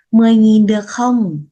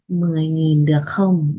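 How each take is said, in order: First: A bargaining question, louder and higher; haggling ask. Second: Said in the usual way. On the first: Acted. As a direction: push the price down like a buyer at the market. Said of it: "Hani thực qua". (người mua mặc cả lớn tiếng) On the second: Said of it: "là".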